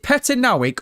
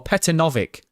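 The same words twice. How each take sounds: First: "Petanovic" said with a w sound, like Petanowick; first pronunciation option. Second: "Petanovic" said with a clear v, like Petanovick; second pronunciation option. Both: Shown as a demonstration. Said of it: "is it Petanovic or Petanovic".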